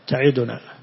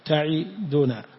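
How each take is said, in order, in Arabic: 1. تُحذف الحركة بعد الدال. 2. تُنطق الحركة بعد الدال كاملة. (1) "ما يحقق الضمة على الدال... كأنها ساكنة" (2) "تحقق ضمة الدال فحقق كسرة العين... كأنك نزول ثم طلوع"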